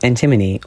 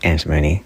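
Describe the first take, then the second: First: It is the speaker's own pronunciation of the name. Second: It is the pronunciation chemists use for the word.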